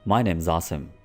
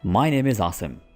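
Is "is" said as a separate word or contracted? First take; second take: contracted; separate. First: The word is is contracted and joined. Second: The word is is said separately.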